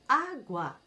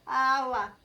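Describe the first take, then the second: First: The g sound in the middle is clearly pronounced. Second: The g sound in the middle is left out. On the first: This is the adult, correct form of the word. The speaker calls it right. "falar a palavra corretamente" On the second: This is how a small child says the word. The speaker calls it wrong. "Ela diz"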